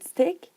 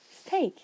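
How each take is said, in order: First: Said in the usual way. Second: "steak" for stick, with a long AY vowel; Pacific West Coast pronunciation. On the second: Shown as a demonstration. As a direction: slowly show stick sounding like "steak". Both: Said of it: "is pronounced like steak".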